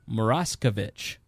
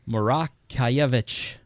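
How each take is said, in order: First: The name has an Americanized pronunciation. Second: The name has a Polish pronunciation. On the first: This is how the family in America says it. The speaker calls it wrong. "My family says Moraskevich. That is not authentic" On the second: This is how it is said in Poland. The speaker calls it right. "according to my fifth cousin from Warsaw, it should be said Moraskevich"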